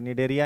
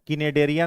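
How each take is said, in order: First: The word begins with an n sound. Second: The word begins with a k sound. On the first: The speaker calls it right. "निडेरिया ही पढ़ेंगे" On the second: The speaker calls it wrong. "सी silent है तो किनेडेरिया नहीं पढ़ेंगे"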